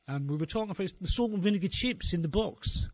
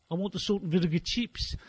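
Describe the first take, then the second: First: Said in the usual way. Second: "salt and vinegar chips" said in a put-on Australian accent; the faked Australian teen asks for "chips"; mock Australian accent. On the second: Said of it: "pretend you're Australian for the day".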